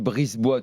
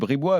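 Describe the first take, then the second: First: The s in the middle is pronounced. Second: The s in the middle is silent. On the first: The speaker calls it wrong. "si quelqu'un vient et dit Brisebois" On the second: The speaker calls it right. "ça se dit Bribois"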